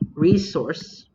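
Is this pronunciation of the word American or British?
British. It is said with a British pronunciation. The speaker calls it wrong. "Because we're not British"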